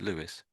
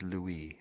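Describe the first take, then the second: First: The name is said the English way. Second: The name is said the French way. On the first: "As Lewis, did you say?" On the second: "I'm just saying it the French way"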